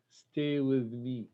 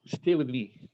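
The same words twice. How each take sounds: First: Slow, softer Stay with me; slow softer line. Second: Said in the usual way. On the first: Acted. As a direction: draw out Stay with me slowly and gently. Reads poem line tenderly.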